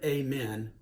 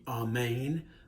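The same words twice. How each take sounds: First: The first vowel sounds like 'ay'. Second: The first vowel sounds like 'ah'. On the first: The speaker calls it wrong. "incorrectly pronounced" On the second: The speaker calls it right. "it's actually"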